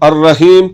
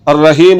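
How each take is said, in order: No difference in how they are said.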